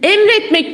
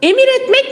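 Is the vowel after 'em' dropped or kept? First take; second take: dropped; kept. First: The vowel after 'em' is dropped. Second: The vowel after 'em' is kept. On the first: The speaker calls it right. "Emretmek diyoruz değil mi" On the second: The speaker calls it wrong. "Emir etmek mi diyoruz?"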